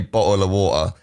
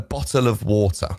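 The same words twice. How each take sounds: First: It is said in a casual, clipped accent. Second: It is said in a posh, fully enunciated accent. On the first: This is not how the person talks. "He wouldn't say bottle of water" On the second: This is how the person really talks. "really really posh. Enunciates everything. That's how he sounds"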